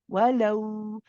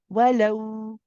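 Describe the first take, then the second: First: The w is a firm consonant made with the lips. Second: The same.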